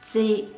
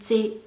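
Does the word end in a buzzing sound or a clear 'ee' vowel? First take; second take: ee vowel; ee vowel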